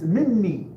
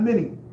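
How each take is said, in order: First: The n sound is doubled and held longer. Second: The n sound is short and single. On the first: The speaker calls it right. "you're going to have to add another noon" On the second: The speaker calls it wrong. "It's not mini"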